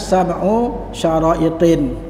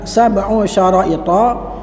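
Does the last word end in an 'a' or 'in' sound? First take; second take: in; a. First: The last word ends in an added 'in' sound. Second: The last word ends in a plain 'a' vowel. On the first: The form is changed to fit the poem's meter. "dibaca dengan tanwin" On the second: This is the regular grammatical form. "yang semestinya adalah"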